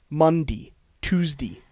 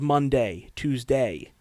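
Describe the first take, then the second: First: The days end with a dee sound. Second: The days end with a day sound. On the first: "everyone has said D instead of day" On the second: "instead of day"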